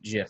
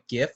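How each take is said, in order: First: It begins with a soft G sound. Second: It begins with a hard G sound. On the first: "the person who uh, coined the term pronounces it" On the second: "with a hard G"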